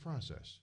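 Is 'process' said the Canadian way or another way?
another way. The word is said in a non-Canadian pronunciation. "Or is it process?"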